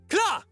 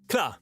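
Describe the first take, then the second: First: It is said loudly and forcefully. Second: It is said softly and relaxed. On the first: "screamy ones, and when we do the no, normal intense ones" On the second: "a little bit more chill ones"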